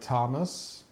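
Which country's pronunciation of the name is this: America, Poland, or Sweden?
America. The name is said the American way. "In America, I guess it's like"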